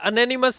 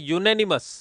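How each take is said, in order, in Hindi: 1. शब्द की शुरुआत छोटे 'uh' स्वर से होती है। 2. शब्द की शुरुआत 'you' ध्वनि से होती है। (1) "नहीं बोलते इसको" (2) "इसको बोला जाता है यूनेनिमस"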